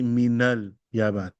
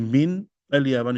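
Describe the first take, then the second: First: Min is joined smoothly onto the next word. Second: Min is said as a separate word. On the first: The speaker calls it right. "you say" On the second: The speaker calls it wrong. "So you don't say"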